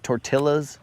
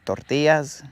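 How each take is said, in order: First: The word is pronounced the English way. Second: The word is pronounced the Spanish way. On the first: The speaker calls it wrong. "I'm not gonna say" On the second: The speaker calls it right. "if there's a word that needs to be pronounced in Spanish, then pronounce it in Spanish"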